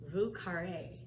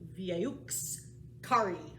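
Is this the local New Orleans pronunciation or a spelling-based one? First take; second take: local; spelling-based. First: It is said with the local New Orleans pronunciation. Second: It is said following the written spelling. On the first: "I'm going to say it the New Orleans way" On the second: "if you did it the way it's written"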